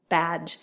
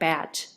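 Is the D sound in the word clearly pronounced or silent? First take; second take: clear; silent. First: The D sound is pronounced clearly and separately. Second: The D sound is silent, ending in j. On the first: "You don't really hear me say badge" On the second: "It just sounds like badge with a j"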